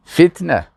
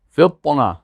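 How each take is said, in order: First: فتنه with a light, plain t. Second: فطنه with a heavy, emphatic ط; thick ط in فطنه. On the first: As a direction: say فتنه with a thin t and front vowels. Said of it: "اما به تی". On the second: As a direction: say فطنه with a dark t and rounded vowel. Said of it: "اینجا با تا هست". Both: Shown as a demonstration.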